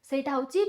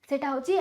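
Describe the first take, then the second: No difference in how they are said.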